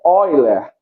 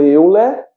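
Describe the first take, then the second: First: The first syllable is said like 'oi'. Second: The first syllable is said as written, 'eu'. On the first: "mas a pronúncia é Euler" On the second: "É escrito Euler"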